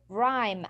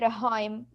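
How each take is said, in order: First: The h sound is silent. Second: The h sound is pronounced. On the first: The speaker calls it right. "I will say rhyme, and the H is silent" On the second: The speaker calls it wrong. "I will not say rhyme"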